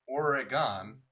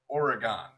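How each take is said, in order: First: The E vowel is pronounced fully. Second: The ending is pronounced fully as gone. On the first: "where you pronounce the E" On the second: "or the G O N"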